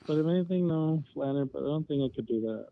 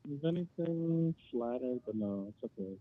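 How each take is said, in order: First: Louder, right into the mic; talking into phone. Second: Far from the phone; quiet, off the mic; phone held away. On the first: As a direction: close to the phone. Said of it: "Yeah, please do that then". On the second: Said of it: "Could you talk into the phone? You're really quiet". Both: Real, not acted.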